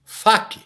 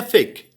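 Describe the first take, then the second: First: "fac" read letter for letter, with an open a; read as spelt. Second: "fake" said the English way, with an "ey" vowel; English pronunciation. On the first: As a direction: say "fac" as written, not as in English. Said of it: "Escreve de um jeito, se pronuncia do outro". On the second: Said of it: "se pronuncia fake". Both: Shown as a demonstration.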